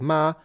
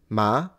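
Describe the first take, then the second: First: The pitch stays high and level. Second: The pitch rises from middle to high.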